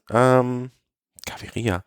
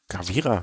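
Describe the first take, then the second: First: The name is said with four syllables. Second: The name is said with three syllables. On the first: The speaker calls it right. "Fernando Gaviria" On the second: The speaker calls it wrong. "Dann ist das aber falsch"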